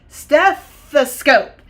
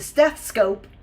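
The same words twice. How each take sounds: First: An 'uh' vowel is said before '-scope'. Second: The 'uh' vowel before '-scope' is left out. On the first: The speaker calls it right. "We say stethoscope" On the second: The speaker calls it wrong. "the doctor doesn't come and say"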